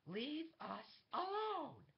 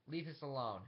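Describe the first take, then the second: First: Very high, slow, drawn-out scream; furious command. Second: Said in the usual way. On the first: Acted. She repeats her order to the guard, furious screamed command. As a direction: scream it out, stretching each word.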